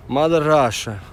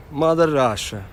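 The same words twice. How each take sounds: The two takes are said the same way.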